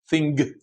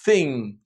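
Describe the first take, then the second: First: The final g is heard as a hard sound. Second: The final g is not heard separately. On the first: The speaker calls it wrong. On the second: The speaker calls it right.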